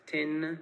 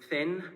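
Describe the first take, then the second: First: It begins with a crisp t-like stop. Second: It begins with a soft hissing th sound. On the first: "would be pronounced as" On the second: "words like um, thin"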